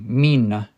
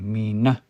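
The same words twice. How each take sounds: First: The stress is on the first syllable. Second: The stress is on the second syllable. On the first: The speaker calls it wrong. "You don't say mina" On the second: The speaker calls it right. "you say mina. Stress is on the second one"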